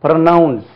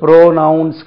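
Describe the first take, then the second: First: ப்ரொனவுன்ஸ் with a quick short "pruh"; ப்ரொனவுன்ஸ், falling on "nounce"; correct pronunciation. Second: ப்ரோனவுன்ஸ் with a drawn-out "PRO"; ப்ரோனவுன்ஸ் wrongly modelled on pronoun; wrong pronunciation. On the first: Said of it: "இதுக்கு ப்ரோனவுன்ஸ் கிடையாது". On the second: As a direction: say ப்ரோனவுன்ஸ் as "PROH-nounce". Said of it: "ப்ரோனவுன்ஸ் கிடையாது". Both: Shown as a demonstration.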